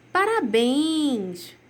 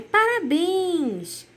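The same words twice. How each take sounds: First: Slow, drawn-out cheer; congratulating. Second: Slow, drawn-out and higher happy cheer; joyful congratulations. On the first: Teacher reading an exclamation to pupils, a slow, drawn-out cheer. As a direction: stretch the word out as you cheer. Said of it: "o emoji com a carinha de parabéns". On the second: Teacher showing pupils a joyful exclamation, higher and drawn out. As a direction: really celebrate someone with it. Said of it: "com um tom mais, é, de alegria". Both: Shown as a demonstration.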